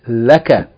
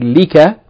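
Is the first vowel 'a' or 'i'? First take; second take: a; i. First: The first vowel is a. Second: The first vowel is i. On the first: The speaker calls it right. "you say laka" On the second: The speaker calls it wrong. "you don't say lika"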